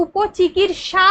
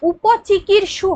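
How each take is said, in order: First: "উপচিকিৎসা" slow and higher, ending in long "sha"; correct word ending. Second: "উপচিকিৎসু" slow, ending in a clear "su"; wrong word ending. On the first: Teacher correcting the word, "উপচিকিৎসা" slowly with -sha at the end. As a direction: draw out উপচিকিৎসা, landing on the final aa. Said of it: "এটা হচ্ছে উপচিকিৎসা হয়". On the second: Teacher showing the faulty form, "উপচিকিৎসু" slowly with -su at the end. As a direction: spell out উপচিকিৎসু slowly with the final u sound. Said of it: "কথাটা উপচিকিৎসু হয় না". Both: Shown as a demonstration.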